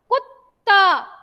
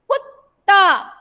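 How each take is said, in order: The two takes are said the same way.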